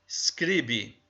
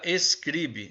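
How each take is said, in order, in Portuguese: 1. A palavra começa direto com o som de S. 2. Uma vogal E extra vem antes do S.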